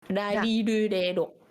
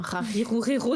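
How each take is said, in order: First: The consonant is between an R and an L. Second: The consonant is a throaty French R. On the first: The speaker calls it right. "c'est pas un R, c'est pas un L. C'est entre les deux" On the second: The speaker calls it wrong. "le prononcer comme un R, parce que vraiment les Japonais ils comprennent pas"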